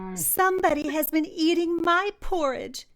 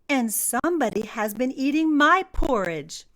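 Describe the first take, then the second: First: It is said in a tiny, squeaky voice. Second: It is said in a medium-pitched voice.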